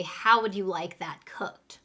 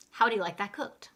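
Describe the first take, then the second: First: Said in the usual way. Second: Quick, linked "How would you like that cooked?"; fast natural English. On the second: Shown as a demonstration. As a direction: run "How would you" together at a brisk pace. Teacher repeats phrase in fast English.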